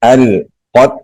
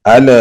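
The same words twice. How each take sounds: First: "القت" with a smooth, unbounced l and stopped t; soft lam. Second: "ال" with an extra little vowel after the l; wrong bounced lam. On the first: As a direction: flow gently through the l of "القت". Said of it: "نرمی سے پڑھیں گے". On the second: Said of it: "ایسے نہیں کریں گے". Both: Shown as a demonstration.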